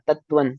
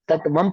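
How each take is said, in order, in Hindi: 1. शब्द n ध्वनि से खत्म होता है। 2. शब्द m ध्वनि से खत्म होता है। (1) "हाँ, तत्वन।" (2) "ये जो आप तत्वम तत्वम पढ़ रहे हो ना, वम नहीं ना"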